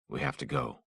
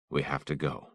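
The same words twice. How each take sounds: First: Said higher and softer; first, lifted and gentle; a softer, higher first try; higher take. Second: Said in the usual way. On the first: Acted.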